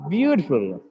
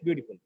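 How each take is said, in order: First: The first syllable is louder and longer. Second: No syllable gets extra force or length. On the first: The speaker calls it right. "View is stressed here in this word" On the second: The speaker calls it wrong. "not just beautiful"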